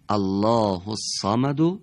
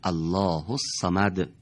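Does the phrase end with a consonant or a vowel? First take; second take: vowel; consonant. First: The phrase ends with a short vowel. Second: The phrase ends on a bare consonant. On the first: "حرف آخر اونها دارای یکی از حرکات" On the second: "در هنگام وقف اون حرکت به سکون تبدیل میشه"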